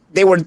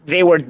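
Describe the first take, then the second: No difference in how they are said.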